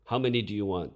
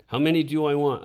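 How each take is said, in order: First: Firm, louder demanding question; stern demand. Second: Much louder, higher demanding question; harsh demand. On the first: Teacher interrogating a student before punishment, stern demand. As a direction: press the boy for an answer. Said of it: "demanded Dickie". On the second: Young teacher copying his friend's punishment, harsh loud demand. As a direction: drive the question at the student in anger. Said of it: "repeated Dickie's lesson". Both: A narrator's reading.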